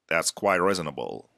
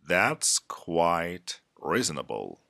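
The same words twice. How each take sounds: First: The phrase is spoken faster. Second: The phrase is spoken slowly. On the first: "the second time, faster" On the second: "the first time, I'm going to repeat these phrases slow"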